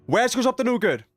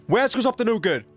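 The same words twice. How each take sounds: The two takes are said the same way.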